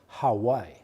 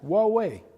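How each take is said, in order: First: It is said like the island Hawaii. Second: It is said like wah-way. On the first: The speaker calls it wrong. "Some people call us Hawaii. This is lovely, but that's kind of an island" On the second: The speaker calls it right. "We are pronounced Huawei. As easy as that"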